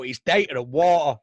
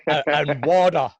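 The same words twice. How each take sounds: First: Data with a crisp t, day-ta, water with a hard t, wɔtə; setting his mate straight on data and water, hard t; Manchester data and water. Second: Mocking his mate's Aussie water, wɔdə; Australian water. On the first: Shown as a demonstration. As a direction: correct data and water the Manchester way, clear t sounds. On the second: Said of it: "'cause you say data".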